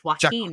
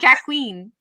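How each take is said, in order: First: The name starts with a 'wah' sound. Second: The name starts with a 'jack' sound. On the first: The speaker calls it right. "it's Joaquin" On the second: The speaker calls it wrong. "not Jack Queen"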